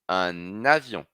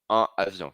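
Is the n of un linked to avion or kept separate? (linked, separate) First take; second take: linked; separate. First: An n sound joins the two words together. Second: The two words are said apart without an n link. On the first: The speaker calls it right. "Então eu ligo com N" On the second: The speaker calls it wrong. "Não vou falar un avion, un avion, fica difícil"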